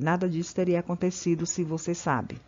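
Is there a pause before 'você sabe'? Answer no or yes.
No. It runs straight on with no pause. The speaker calls it wrong. "Você não pode ler"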